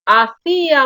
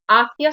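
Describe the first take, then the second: First: Hacía in three syllables with a strong Í; stress on the Í. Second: Hacia in two syllables, stressed on the first A, the I gliding. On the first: Teacher contrasting two confusable words, hiatus with stressed Í in Hacía. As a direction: lean on the Í in Hacía. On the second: Teacher contrasting two confusable words, diphthong with stressed first A in hacia. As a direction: keep the I of hacia unstressed. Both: Shown as a demonstration. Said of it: "si confundo estas dos palabras".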